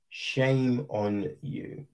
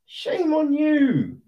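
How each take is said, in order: First: Slow, soft, low "Shame on you"; low disappointed scold. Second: High, sing-song "Shame on you" with a falling "you"; high mocking scold. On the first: Acted. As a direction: drag out "Shame" quietly, like a let-down parent. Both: Repeated rebuke to FIFA.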